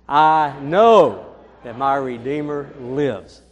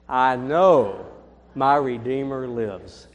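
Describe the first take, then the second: First: It is said with loud, enthusiastic energy. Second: It is said with ordinary, calm energy.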